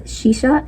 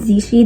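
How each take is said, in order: First: The name begins with an 'sh' sound. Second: The name begins with a 'z' sound. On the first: The speaker calls it right. "the main character's name is" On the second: The speaker calls it wrong. "I was pronouncing it Zishi the entire time"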